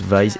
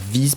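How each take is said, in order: First: It is pronounced the English way, like 'vice'. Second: It is pronounced the French way, like 'viz'. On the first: The speaker calls it right. "le nom se prononce Vise" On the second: The speaker calls it wrong. "et non pas Vise"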